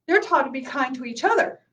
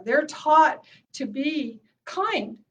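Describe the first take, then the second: First: Said in the usual way. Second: Slow, stretched "taught" leaning on "kind"; slow emphasis. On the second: Shown as a demonstration. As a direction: draw it out deliberately, word by word.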